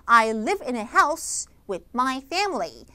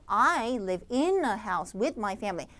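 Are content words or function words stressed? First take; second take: content words; function words. First: Stress falls on the content words. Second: Stress falls on the function words. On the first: The speaker calls it right. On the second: The speaker calls it wrong.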